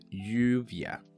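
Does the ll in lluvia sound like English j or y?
y. The ll is a soft y-like glide. "第一次我会用E 的发音"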